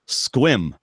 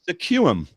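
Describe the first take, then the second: First: It is said in one syllable, squim. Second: It is said in two syllables, se-quum. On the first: The speaker calls it right. "The answer is Squim" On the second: The speaker calls it wrong. "It's obviously"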